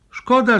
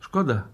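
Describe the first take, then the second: First: Much higher, louder, cutting "Szkoda"; sharp exclamation. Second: Said in the usual way. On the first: Acted. Inspector rebuking the embassy man, loud sharp exclamation. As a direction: throw the word out like a reproach.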